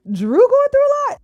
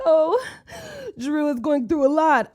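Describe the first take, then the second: First: High, loud disbelief; incredulous outburst. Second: 1 mock sympathy. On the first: Acted. Host mocks comment pitying crying Drew, incredulous. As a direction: scoff at the idea in disbelief. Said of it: "Not the kids, but Drew". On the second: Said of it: "some of the comments was like".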